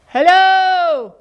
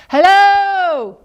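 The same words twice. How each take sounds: First: Higher, louder called hello; calling out. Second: Higher, louder echoing hello. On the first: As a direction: call across the pond. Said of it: "he cried". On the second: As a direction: echo the hello back. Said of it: "said the voice". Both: Acted.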